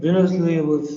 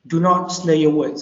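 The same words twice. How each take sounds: First: It is said fast and slurred. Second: It is said clearly and distinctly.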